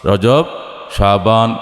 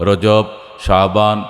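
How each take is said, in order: No difference in how they are said.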